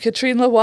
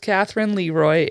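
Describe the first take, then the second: First: The first name is said the French way. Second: The first name is said the English way. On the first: The speaker calls it right. "I believe is the way it's supposed to be pronounced" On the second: The speaker calls it wrong. "that is not how you say it"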